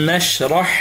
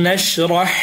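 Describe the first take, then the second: Both takes have the same delivery.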